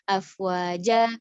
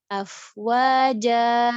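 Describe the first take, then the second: First: The final vowel is cut too short. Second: The final vowel is held too long. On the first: "kurang, kurang gitu nanggung" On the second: "kepanjangan nggak boleh"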